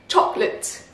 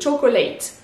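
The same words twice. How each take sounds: First: The middle syllable is dropped and the last vowel is short. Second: The middle syllable is pronounced and the last vowel is full. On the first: The speaker calls it right. "le A il se prononce limite comme un petit I et le co il disparaît" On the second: The speaker calls it wrong. "j'ai aucun problème à le prononcer"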